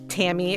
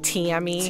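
First: The name is said in a neutral accent. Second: The name is said in a Philadelphia accent.

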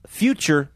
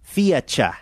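First: The word is said without an added vowel. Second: The word is said with an added vowel. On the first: This is the standard way to say it. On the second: This is how Australians say it.

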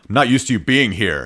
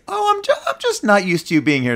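First: The voice sounds irritated and put out. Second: The voice sounds warm and affectionate. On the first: It suggests the partner is unwelcome. "but it's like" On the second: It is an endearing remark. "you just look for the tone. It's like if it's"

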